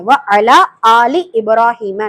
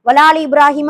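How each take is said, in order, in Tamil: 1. தொடக்கத்தில் உள்ள ஒவ்வொரு சொல்லும் தெளிவாகவும் தனித்தனியாகவும் உச்சரிக்கப்படுகிறது. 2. தொடக்கச் சொற்கள் ஒரே சொல்லாகச் சேர்த்துச் சொல்லப்படுகின்றன. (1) "நல்ல வார்த்தைய தெளிவா நம்ம உச்சரிக்கணும்" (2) "வலாலின்னு சொல்லக்கூடாது"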